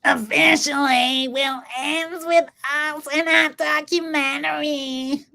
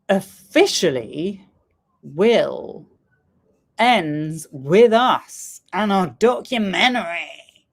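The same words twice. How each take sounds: First: It is said in an imitated voice. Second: It is said in a natural voice.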